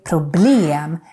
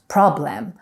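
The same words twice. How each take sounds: First: The stress is on the last syllable. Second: The stress is on the first syllable. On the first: The speaker calls it right. "we put the stress on the last syllable" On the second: The speaker calls it wrong. "and not"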